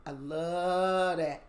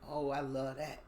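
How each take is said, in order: First: "I love that" drawn out slow and louder; savoring it. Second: Said in the usual way. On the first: Real, not acted. Savoring her love of knife combat, slow and louder. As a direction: relish every word of "I love that".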